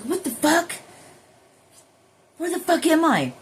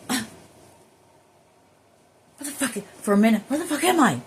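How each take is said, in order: First: Much higher, strained mock disbelief; imitating shock. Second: Higher, louder, fast mock bewildered outburst; imitating confusion. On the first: Imitating her own startled self coming back to her body, mock shocked. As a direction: blurt it like waking somewhere strange. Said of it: "And you're like". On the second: Imitating her own confused self on returning to her body, mock bewildered. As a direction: act out waking up lost and rattled. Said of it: "when you're like".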